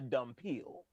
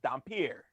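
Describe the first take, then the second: First: The word ends with a 'peel' sound. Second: The word ends with a 'peer' sound. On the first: The speaker calls it wrong. "That is not how you say it" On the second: The speaker calls it right. "It is Dampier"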